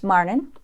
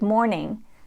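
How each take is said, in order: First: The first vowel sounds like ar. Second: The first vowel sounds like or.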